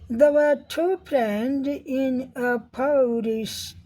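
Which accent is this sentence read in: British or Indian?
British. It is read in a British English accent. "British accent में पढ़ेंगे"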